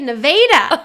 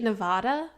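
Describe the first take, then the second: First: It is said the local way for the town. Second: It is said the usual way for the state. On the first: "We say Nevada. That's the actual pronunciation of that town" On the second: "like the state Nevada"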